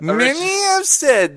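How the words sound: It is read in a put-on character voice.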